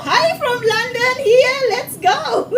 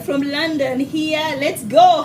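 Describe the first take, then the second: First: High, drawn-out excited greeting; thrilled high-pitched welcome; excited shout-out. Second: Said in the usual way. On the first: Real, not acted. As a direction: hail the London viewers in a high, stretched voice. Excited shout-out to London viewers.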